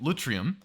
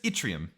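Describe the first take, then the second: First: The word begins with an L sound. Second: The word begins with an I sound. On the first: The speaker calls it wrong. "I misread a comment and started pronouncing it lutrium" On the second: The speaker calls it right. "It's just yttrium. It's pronounced like an I"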